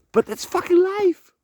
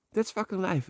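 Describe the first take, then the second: First: Defiant outburst. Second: Said in the usual way. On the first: Real, not acted. Defiant outburst about painful truth.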